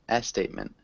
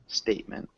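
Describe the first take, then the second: First: An extra vowel sound comes before the S. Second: The word begins directly with the S sound. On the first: The speaker calls it wrong. "it sounded like you said a statement" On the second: The speaker calls it right. "Start with the S sound"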